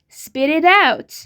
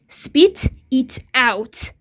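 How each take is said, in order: First: The three words are linked together. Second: The three words are said separately. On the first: The speaker calls it right. "We say spit it out" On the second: The speaker calls it wrong. "We don't say spit it out. This is not true"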